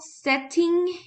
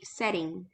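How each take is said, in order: First: The T is pronounced as a clear T. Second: The T is softened to a quick flap. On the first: This is the British way of saying it. "if you pronounce the T like a T, uh, this is more of a London or U K pronunciation" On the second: This is the American way of saying it. "American pronunciation would be"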